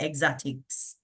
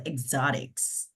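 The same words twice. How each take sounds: First: "exotics" in a Jamaican accent. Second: "exotics" in a put-on American accent; American-style exotics. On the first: Host showing how it is said at home, Jamaican-accented "exotics". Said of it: "how we say it in Jamaica". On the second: Host checking the word in her twang, American-accented "exotics". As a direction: say "exotics" the American way, not the Jamaican. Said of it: "Not how we say it in Jamaica". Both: Shown as a demonstration.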